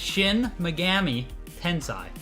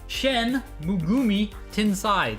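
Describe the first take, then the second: First: The name's vowels are pronounced the standard way. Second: The name's vowels are pronounced in a garbled way. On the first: The speaker calls it right. "It's Shin Megami Tensei" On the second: The speaker calls it wrong. "That's not how you pronounce it"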